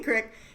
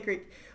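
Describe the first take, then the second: First: The word has a short 'i' vowel, like 'crick'. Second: The word has a long 'ee' vowel, like 'creek'. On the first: It is a regional way of saying it. "I get made fun of for saying crick because it makes me sound hick, but I, I say crick" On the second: It is the more common way of saying it. "You can say creek"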